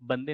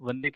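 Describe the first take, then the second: First: The word begins with a b sound. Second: The word begins with a v sound. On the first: This is how Bengali speakers say it. "लेकिन वो बंगाली हैं तो वो बा कहेंगे" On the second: This is how Hindi speakers say it. "जैसे हिंदी में हम वंदे कहते हैं"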